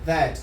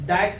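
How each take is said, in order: First: The first sound has the tongue between the teeth. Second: The first sound is a hard d-like stop. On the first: The speaker calls it right. "टंग ... अपर और lower teeth है उसके बीच में आता है" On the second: The speaker calls it wrong. "दैट नहीं बोलोगे"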